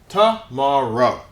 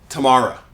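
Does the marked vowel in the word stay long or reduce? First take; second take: long; reduced. First: The marked vowel keeps its long, full sound. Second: The marked vowel is reduced to a weak sound. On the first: The speaker calls it right. "this sound stays long" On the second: The speaker calls it wrong. "English speakers don't say tomorrow... sounds a little countryish"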